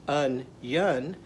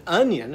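First: "onion" said as two parts, un-yun; split into syllables. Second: Said in the usual way. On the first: Shown as a demonstration. Teacher counts syllables for children, "onion" broken in two. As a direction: separate both syllables of "onion". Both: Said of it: "another two-syllable word".

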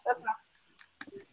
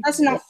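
First: Slow, much softer, trailing away; muttered repeat. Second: Said in the usual way. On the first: Real, not acted. Repeating to the arguing friend, slow and much softer. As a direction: say it again under your breath, drawn out.

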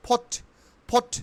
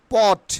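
First: "ফট" with puffed P and silent R; correct pronunciation. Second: "port" loud with plain P; wrong pronunciation. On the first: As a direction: say "ফট" as short "phot". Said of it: "কি উচ্চারণ হবে". ("ফট", র ছাড়া ফ দিয়ে) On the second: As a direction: say "port" with unaspirated Bengali P. ("port"-এ জোরে প) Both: Shown as a demonstration.

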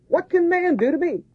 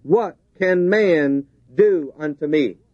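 First: High squeaky mock voice; mocking high squeak. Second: Said in the usual way. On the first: Preacher mocking man's threat, squeaky high voice. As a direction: squeak it like a scornful little man. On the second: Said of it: "the rest of the verse is a question".

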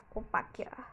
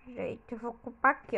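First: Unvoiced, much softer whisper. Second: Said in the usual way. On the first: Real, not acted. Gamer quietly claiming a spot, whisper. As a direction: whisper it to yourself.

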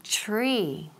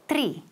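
First: Tree with the TR blended like ch, chree; tree with a ch sound. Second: Tree with a tapped Spanish R and no ch sound; Spanish-style tree. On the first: Teacher modelling the right sound for students to repeat. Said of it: "So repeat". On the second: Teacher showing the common Spanish mistake, plain R. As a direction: say tree the typical Spanish way, with a flicked R. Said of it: "Not tree". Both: Shown as a demonstration.

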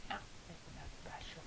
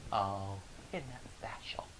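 First: Higher, thinner whispered jab; high whispered sneer. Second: Slow, whispered mock sympathy; sneering whisper. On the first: Retold or imitated. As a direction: twist the knife with a breathy high voice. Coworker sneering again. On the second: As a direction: breathe it out, dripping with fake pity. Coworker sneering.

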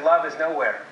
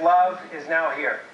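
First: "nowhere" said as one word, no-where; reading it as nowhere. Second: "now" and "here" said as two separate words; reading it as now here. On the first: Speaker demos the pessimist's reading to the audience, one word. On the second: Speaker demos the optimist's reading to the audience, split apart. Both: Shown as a demonstration. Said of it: "how many said".

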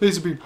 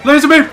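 First: Said in the usual way. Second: High, loud burst; playful shout. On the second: Pretend. Player escalating a laser joke, high playful shout. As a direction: yell it suddenly, pitched way up.

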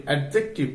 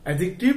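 First: অ্যাডজেক্টিভ with the d wrongly sounded, "ad-jek-tiv"; common mispronunciation. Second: অ্যাডজেক্টিভ as "a-jik-tiv", no d sound; silent-d pronunciation. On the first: Teacher showing learners a common slip, অ্যাডজেক্টিভ with audible d. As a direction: stop on the d in অ্যাডজেক্টিভ before the j. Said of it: "এই দুটো উচ্চারণই ভুল". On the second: Teacher giving learners the corrected form, অ্যাডজেক্টিভ with silent d. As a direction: glide straight to the j in অ্যাডজেক্টিভ, dropping the d. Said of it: "উচ্চারণ কি হবে?". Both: Shown as a demonstration.

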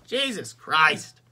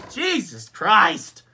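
First: Exasperated. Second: Slow, high, loud outburst; louder exasperation. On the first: Exasperated exclamation, first take. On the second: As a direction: drag it out loudly, fed up. Repeats exclamation, more heated. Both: Real, not acted.

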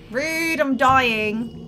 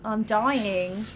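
First: Slow, louder mock dying wail; hammed-up dying groan; drawn-out mock wail. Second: Said in the usual way. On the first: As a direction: stretch it out like a melodramatic death cry.

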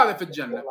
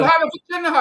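First: Said in the usual way. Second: هذا في الجنة thrown out higher, louder and fast; emphatic claim. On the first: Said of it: "تقول هذا في الجنة". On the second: Shown as a demonstration. Cleric mimics opponent's verdict loudly, then restates it plainly. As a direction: rattle off هذا في الجنة with heat.

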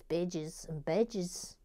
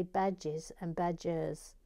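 First: Australian vowels on "badges and badges"; mock-Australian "bedges and bedges"; Australian accent. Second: Said in the usual way. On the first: Shown as a demonstration. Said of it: "I imagine in Australian". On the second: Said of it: "because in English you say".

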